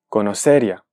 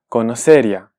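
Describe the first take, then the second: First: The i glides into the a as one syllable. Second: The i glides into the a as one syllable.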